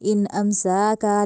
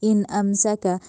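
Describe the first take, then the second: First: The vowel after the s is lengthened. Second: The vowel after the s is short. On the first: The speaker calls it wrong. "नहीं करना" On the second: The speaker calls it right. "सीन को लंबा क्यों नहीं करना"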